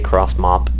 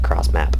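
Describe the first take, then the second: First: The vowel in the second word sounds like mop. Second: The vowel in the second word sounds like cap. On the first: "I say cross mop" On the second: "instead of cross map"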